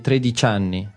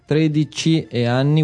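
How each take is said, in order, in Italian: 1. Una vocale cade e le parole si fondono. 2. Entrambe le parole mantengono le loro vocali, pronunciate separatamente. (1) "we say 13 anni" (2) "when there is like 13 e anni"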